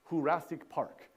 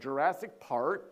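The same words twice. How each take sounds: First: It mixes English and Spanish pronunciation. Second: It has a heavy American English accent. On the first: "this weird hybrid pronunciation between English and Spanish" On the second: "this time they say it with this really thick American accent"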